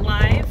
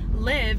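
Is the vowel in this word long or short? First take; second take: long; short. First: The vowel is a long i sound. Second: The vowel is a short i sound. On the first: "it makes the I say its long name" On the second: "it's because an English word can't end in a V"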